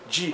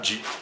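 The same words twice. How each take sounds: First: The sound is said with a buzzing vibration. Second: The sound is said without a buzzing vibration. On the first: The speaker calls it right. "there will be something like a vibration" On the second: The speaker calls it wrong. "not G"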